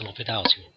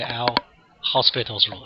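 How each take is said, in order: First: The name does not sound like hospital. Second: The name sounds like the English word hospital. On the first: The speaker calls it right. "It's L'Hopital's rule" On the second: The speaker calls it wrong. "do not say L hospital's rule"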